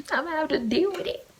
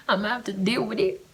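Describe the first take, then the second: First: Much higher, mock sing-song take; high playful repeat; high put-on voice. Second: Said in the usual way. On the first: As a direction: say it again in a high silly voice. Repeats line in new voice.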